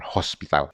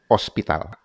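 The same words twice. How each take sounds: First: The initial h is clearly pronounced. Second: The initial h is dropped entirely. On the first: "huruf H di depannya itu kita bisa ucapkan dengan jelas" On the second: "Huruf H di depannya itu hilang"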